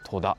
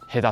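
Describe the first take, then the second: First: The name begins with a t sound: Toda. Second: The name begins with an h sound: Heda. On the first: The speaker calls it wrong. "戸田じゃないや" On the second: The speaker calls it right. "ヘダっていう風に書いてますね"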